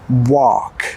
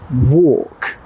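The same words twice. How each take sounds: First: It is said with an American accent. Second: It is said with a British accent. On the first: "In American English" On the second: "In British English"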